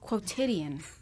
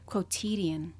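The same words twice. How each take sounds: First: The middle syllable has a short vowel, like tid. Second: The middle syllable has a long vowel, like teed. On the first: The speaker calls it right. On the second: The speaker calls it wrong. "You said teed. You made it a long I"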